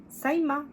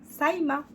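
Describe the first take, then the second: No difference in how they are said.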